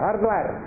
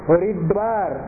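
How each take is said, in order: First: The word is said with two syllables. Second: The word is said with three syllables. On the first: The speaker calls it wrong. "কতগুলো লোক ওইরকম উচ্চারণ করে" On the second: The speaker calls it right. "ভগবানই এই বিশেষণ দিয়েছেন হরিদ্বার"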